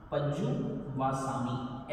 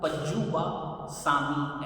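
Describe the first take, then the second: First: The word breaks once, after pajju. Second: The word breaks twice, after pajju and va. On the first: The speaker calls it right. "इसका टुकड़ा पज्जु वासामी ऐसे करना है" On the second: The speaker calls it wrong. "वहां अशुद्धि की संभावना रहती है"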